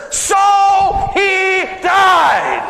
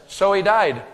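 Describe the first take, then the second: First: So he died stretched very slow, high and loud; sermon punchline milked for laughs; drawn-out punchline. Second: Said in the usual way. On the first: Shown as a demonstration. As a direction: savour each of So he died. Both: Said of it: "three little words in that verse".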